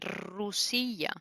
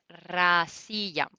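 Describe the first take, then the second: First: The first vowel sounds like 'u'. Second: The first vowel sounds like 'a'. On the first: The speaker calls it wrong. "yo lo decía mal" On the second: The speaker calls it right. "no, es Rasilla"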